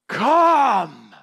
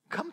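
First: It is said with strong, startling intensity. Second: It is said lightly, like calling a pet.

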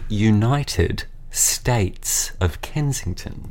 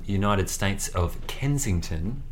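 First: It has a milder Australian accent. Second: It has a strong Australian accent.

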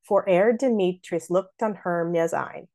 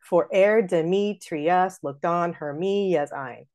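First: Both names are squished into fewer syllables. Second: Both names are said with every syllable. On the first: The speaker calls it right. "See how we made both of those elided, Demetrius and Hermia?" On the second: The speaker calls it wrong. "if I didn't do that. ... that like ruins the rhythm"

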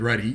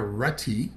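First: The t is softened like a d. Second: The t is pronounced crisply.

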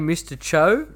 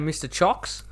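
First: The name is said like 'cho'. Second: The name is said like 'chocks'. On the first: "I've been saying Mr. Cho" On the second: "at one stage I was saying Mr. Chocks"

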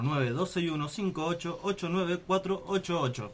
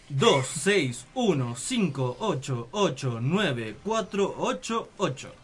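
First: The number is said at normal, fast speed. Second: The number is said more slowly.

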